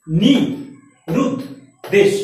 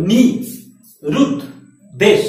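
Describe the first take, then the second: First: নি, রুদ, দেশ said again as three separate beats with pauses; split into syllables. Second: নি, রুদ, দেশ said as three separate beats with pauses; split into syllables. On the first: Teacher repeating the syllable count for the class. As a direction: count out each syllable of নিরুদ্দেশ. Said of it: "তিনবার মুখ থেকে বললাম না?". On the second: Teacher showing students the syllables, paused. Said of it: "তুমি নিজেই বলে দেখো". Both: Shown as a demonstration.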